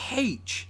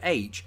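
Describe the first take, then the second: First: It is said with an h sound at the start. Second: It is said without an h sound at the start.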